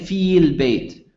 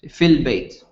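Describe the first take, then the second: First: The first vowel is held long. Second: The first vowel is short and linked. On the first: The speaker calls it wrong. "you don't say feel bait" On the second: The speaker calls it right. "Connects together"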